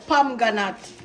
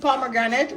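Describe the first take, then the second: First: The middle syllable of the word is dropped. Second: Every syllable of the word is pronounced.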